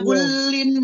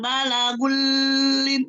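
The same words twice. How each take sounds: First: The merged sound is kept short. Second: The merged sound is held long. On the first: The speaker calls it right. "tidak boleh ditahan lama" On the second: The speaker calls it wrong. "jangan balagulin, tidak boleh tahan lama"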